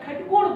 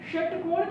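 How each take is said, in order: First: The word begins with a kh sound. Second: The word begins with a sh sound. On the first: The speaker calls it wrong. "खटकोण बोलते हैं" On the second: The speaker calls it right. "षटकोण की बजाय"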